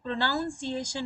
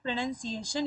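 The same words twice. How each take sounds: First: The middle syllable sounds like 'noun'. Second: The middle syllable sounds like 'nun'. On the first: The speaker calls it wrong. "इसको प्रोनाउंसिएशन नहीं पढ़ते हैं" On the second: The speaker calls it right. "ये है प्रोनाउंसिएशन"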